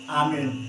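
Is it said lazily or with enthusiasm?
enthusiasm. It is said with lively enthusiasm.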